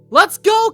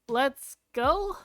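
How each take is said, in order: First: It is said louder and with more force. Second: It is said quietly and timidly. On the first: The speaker is trying to cheer with enthusiasm. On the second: The speaker feels embarrassed calling out.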